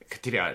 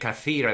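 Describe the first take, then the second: First: The word is said compressed, with sounds reduced. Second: The word is said in full, all syllables clear. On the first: This is the spoken dialect form. "they say kathira. Like, they seem to, compress a lot of these words" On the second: This is the standard Arabic form. "instead of saying kathira"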